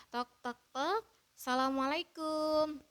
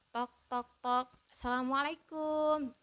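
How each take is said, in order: The two takes are said the same way.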